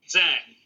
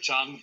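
First: It is said the way most English speakers say it. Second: It is said the way students of Chinese say it. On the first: The speaker calls it wrong. "everyone except people who studied Chinese pronounce it Zhang" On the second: The speaker calls it right. "I try to be correct"

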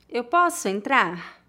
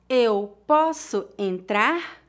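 First: The sentence is spoken at natural speed. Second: The sentence is spoken slowly. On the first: "outra vez mais naturalmente" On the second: "uma vez mais devagar"

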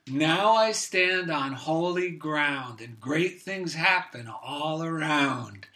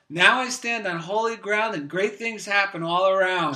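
First: It is said slowly and carefully. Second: It is said quickly and happily.

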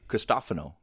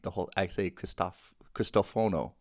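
First: The third syllable has an 'ah' vowel. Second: The third syllable has an 'oh' vowel. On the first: The speaker calls it right. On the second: The speaker calls it wrong.

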